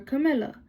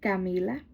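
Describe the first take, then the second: First: The name is said with English pronunciation. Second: The name is said with Spanish pronunciation. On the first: "in English" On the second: "in Spanish"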